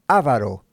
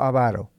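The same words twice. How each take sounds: First: The stress falls on the first syllable. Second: The stress falls on a later syllable. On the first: The speaker calls it wrong. "yo muchas veces escucho a gente que pronuncia esta palabra avaro. No" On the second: The speaker calls it right. "no hay acento en la letra A. Es no avaro"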